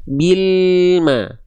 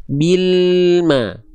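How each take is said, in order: Both takes have the same delivery.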